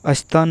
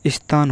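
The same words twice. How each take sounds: First: स्थान with an "a" vowel put in front; स्थान starting as अस्थान; wrong pronunciation. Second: स्थान with at most a short i-glide before the s; स्थान led in by the s; correct pronunciation. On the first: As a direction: say स्थान as "asthaan". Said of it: "गलत उच्चारण के कारण". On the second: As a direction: say स्थान as "(i)sthaan", no "a" in front. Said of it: "स्थान होता है". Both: Shown as a demonstration.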